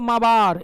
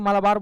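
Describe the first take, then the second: First: The word is said without the L sound. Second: The word is said with the L sound. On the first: The speaker calls it right. "प्रोनाउंस करते हैं इसको माबार, एल silent होता है" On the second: The speaker calls it wrong. "हम लोग को आदत हो गई इसलिए मालाबार बोल देते हैं"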